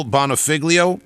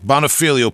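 First: Hard "g" before the "l" in Bonifiglio; mistaken pronunciation. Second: Stressed "fee", no "g" sound in Bonifilio; corrected pronunciation. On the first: Host checks the collaborator's name, Bonifiglio with hard "g". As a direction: say Bonifiglio with a sounded "g", "bona-FIG-lio". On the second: Host repeats the guest's correction, Bonifilio as "bona-FEE-lio". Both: Real, not acted. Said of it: "pardon me".

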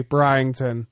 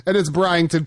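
First: Bryington, lower, like a teacher leading a class; careful pronunciation. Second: Bryington said as Bry-ing-ton; careful pronunciation. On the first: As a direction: lead the room in saying Bryington. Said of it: "let's say it with me, everybody". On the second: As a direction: sound out Bryington in three syllables. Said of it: "It's B R Y". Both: Shown as a demonstration.

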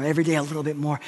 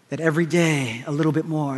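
First: Quieter, lingering repeat; soft reflective echo of the phrase. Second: Said in the usual way. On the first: Shown as a demonstration.

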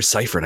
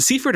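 First: Seifert said as SIGH-fert; long "eye" opening Seifert; second pronunciation SIGH-fert. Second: Seifert said as SEE-fert; long "ee" opening Seifert; first pronunciation SEE-fert. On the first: Host checks a guest's last name, Seifert as SIGH-fert. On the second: Host checks a guest's last name, Seifert as SEE-fert. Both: Shown as a demonstration. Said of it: "I butcher your last names".

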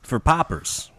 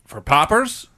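First: Paupers said with a Chicago vowel; flat Midwestern paupers; Chicago accent. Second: Chicago accent. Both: Real, not acted. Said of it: "excuse my Chicago accent".

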